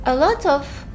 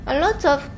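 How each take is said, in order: Both takes have the same delivery.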